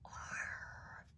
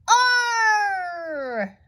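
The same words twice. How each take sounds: First: The word is said in a whisper. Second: The word is shouted loudly. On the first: "Now whisper it" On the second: "Yell the word"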